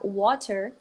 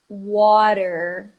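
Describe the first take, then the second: First: The t is pronounced clearly. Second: The t sounds like a quick r. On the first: "O inglês britânico vai- não vai fazer isso" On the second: "Ele junta com uma vogalzinha e vira um R"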